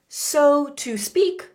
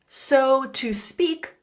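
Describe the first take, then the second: The two takes are said the same way.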